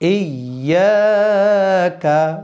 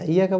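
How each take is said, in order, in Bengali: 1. প্রথম স্বরধ্বনিটি একটি অতিরিক্ত মাত্রা পর্যন্ত টানা হয়। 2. প্রথম স্বরধ্বনিটি হ্রস্ব, এতে কোনো অতিরিক্ত মাত্রা টানা হয় না। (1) "ইয়া এক আলিফ টান" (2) "অনেকে বলে ইয়াকা ইয়াকা ইয়াকা বললে হবে না"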